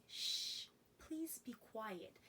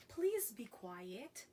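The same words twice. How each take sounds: First: Soft, hushed shushing; hushing. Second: Said in the usual way. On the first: Shown as a demonstration. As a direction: shush them in a near whisper. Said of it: "it's more like saying".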